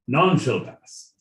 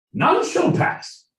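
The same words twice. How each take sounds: First: Royal British at an ordinary pitch, falling at the end; royal British accent. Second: Very high, slow royal British proclamation; royal British accent. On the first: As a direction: bring the regal British down to a firm close. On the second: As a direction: draw it out in a falsetto regal British voice. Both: Acted. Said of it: "in the royal British accent".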